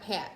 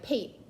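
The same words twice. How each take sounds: First: Said in the usual way. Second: "Pate" drawn out as a Southern ay sound. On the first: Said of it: "not Pat". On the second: Shown as a demonstration. Narrator shows how Mack says the name: "Pate", long ay. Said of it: "made it sound like Pate".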